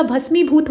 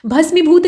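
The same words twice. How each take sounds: First: भस्मीभूत said 'bhas-mee-bhoot', long ee. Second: भस्मीभूत said 'bhasmi-bhoot', short i. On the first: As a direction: lengthen the मी in भस्मीभूत. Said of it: "दीर्घ उच्चारण होगा यहाँ पे". (भस्मीभूत में 'मी' का दीर्घ उच्चारण) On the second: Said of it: "भस्मीभूत नहीं होता". (भस्मीभूत में 'मि' ह्रस्व बोलें) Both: Shown as a demonstration.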